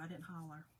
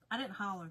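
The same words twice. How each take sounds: First: Softer, dropped repeat; quiet. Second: Said in the usual way. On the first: Real, not acted. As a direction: say it again under your breath.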